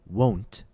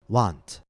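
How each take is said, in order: First: The word has its standard vowel sound. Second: The word has another different vowel sound. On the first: The speaker calls it right. "Instead of saying won't" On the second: The speaker calls it wrong. "students often say won't or want"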